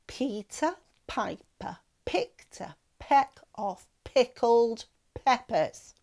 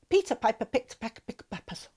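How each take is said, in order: First: It is said slowly. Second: It is said very fast.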